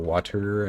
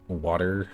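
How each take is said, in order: First: The middle consonant is a clear T. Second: The middle consonant is a soft D sound. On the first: "I don't say mountain or water" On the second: "I say water. There's kind of a D there, but it's kind of glottal stopped"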